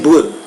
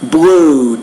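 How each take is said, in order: First: The vowel sound is cut short. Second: The vowel sound is drawn out long. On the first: The speaker calls it wrong. "you might say blue" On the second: The speaker calls it right. "the oo"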